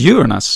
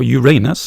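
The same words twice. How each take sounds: First: The word is said the usual, inoffensive way. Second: The word is said the embarrassing-sounding way.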